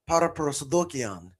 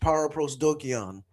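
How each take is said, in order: First: It is pronounced with Greek sounds and stress. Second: It is pronounced with English sounds and stress. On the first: "with the Greek pronunciation that I use" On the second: "but in English"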